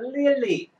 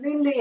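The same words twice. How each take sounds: First: The L sounds are clear English-style L sounds. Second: The L sounds are flapped Korean-style sounds. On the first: The speaker calls it right. "릴리 해야 되는데" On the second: The speaker calls it wrong. "릴리라고 해버리면 이거 완전히 한국어로 바뀌는 겁니다"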